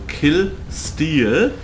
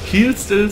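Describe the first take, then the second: First: The second word has a long vowel. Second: The second word has a short vowel. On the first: The speaker calls it right. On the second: The speaker calls it wrong.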